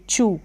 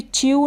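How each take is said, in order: First: Said in the usual way. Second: च्यू said as "chi-yoo"; wrong-reading demo, च्यू as "chi-yoo"; mispronounced with y-glide. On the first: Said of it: "इसको भी च्यू नहीं". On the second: Shown as a demonstration. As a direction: add an "i-y" glide in च्यू before the oo. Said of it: "च्यू नहीं पढ़ देंगे".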